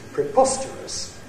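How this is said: The pitch falls from high on the stressed syllable. "With a high fall, it sounds like this"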